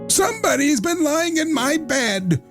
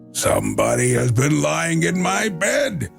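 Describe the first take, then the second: First: It is said in a medium, ordinary voice. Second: It is said in a deep, gruff voice.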